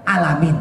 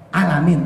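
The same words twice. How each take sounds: Both takes have the same delivery.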